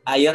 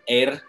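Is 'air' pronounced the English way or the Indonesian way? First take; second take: Indonesian; English. First: It is said with the Indonesian pronunciation. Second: It is said with the English pronunciation. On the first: It means water. "Yang pertama air ya water" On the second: It means the air we breathe. "dan air yaitu udara"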